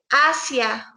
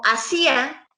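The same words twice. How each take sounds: First: "hacia" stressed on the opening A, said slowly; stress on first syllable. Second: "hacía" in three syllables, stressed on the í. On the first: ("hacia" despacio, con acento en la primera A) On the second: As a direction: lean slowly on the middle í of "hacía". ("hacía" despacio, con énfasis en la í) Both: Shown as a demonstration. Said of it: "si ustedes ahorita me escuchan decir".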